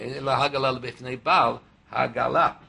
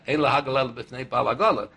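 First: It is said slowly. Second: It is said fast.

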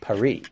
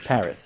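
First: Paris is said with a French pronunciation. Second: Paris is said with an English pronunciation. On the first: The speaker calls it right. "It's Paris" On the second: The speaker calls it wrong. "the French get irritated when we say Paris"

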